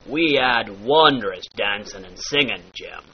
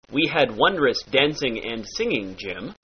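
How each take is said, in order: First: "dancing", "singing" said as "dancin'", "singin'"; dropped G. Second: Said in the usual way. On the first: Shown as a demonstration. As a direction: drop the G at the end of both words. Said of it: "drop that final G". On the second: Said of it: "turns into".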